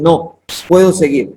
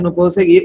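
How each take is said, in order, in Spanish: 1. Hay una pausa después de la palabra no. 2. Se dice como una sola frase, sin pausa. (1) "él dice no, puedo seguir. O sea, yo sí lo voy a hacer" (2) "es una persona que está derrotada y dice"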